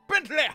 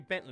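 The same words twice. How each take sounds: First: The name is said with a dramatic, drawn-out flourish. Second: The name is said in a plain, ordinary voice. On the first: The speaker calls it right. "It's got to be Bentley! With a little blah at the end" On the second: The speaker calls it wrong. "You can't say Bentley"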